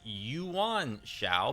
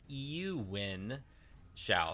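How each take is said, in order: First: The name is said at normal, casual speed. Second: The name is said slowly and carefully. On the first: The speaker calls it wrong. "normally, I would be tempted to pronounce this name as" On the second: The speaker calls it right. "I'm going to say it really slow. I think that this is really pronounced as"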